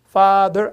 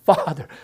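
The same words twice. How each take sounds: First: The stress is on the second syllable. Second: The stress is on the first syllable. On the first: The speaker calls it wrong. "father 아니라" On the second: The speaker calls it right. "강사를 앞에 줘야 돼"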